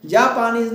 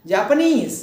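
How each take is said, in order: First: Japanese slowly, leaning on a long जापा; wrong early stress. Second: Japanese with नीज high, loud and falling; stress on last syllable. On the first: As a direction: drag out the front of Japanese. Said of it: "Japanese नहीं". (Japanese में जापा पर ज़ोर, धीरे) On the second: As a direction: hit नीज hard in Japanese. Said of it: "इसके ऊपर जोड़ देंगे". (Japanese में नीज पर ज़ोर) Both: Shown as a demonstration.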